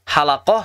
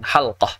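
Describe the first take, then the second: First: A short vowel is heard between l and q. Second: The l runs straight into the q, no vowel. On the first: "Halaqah sahih" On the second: "yang lebih fasih itu lamnya sukun"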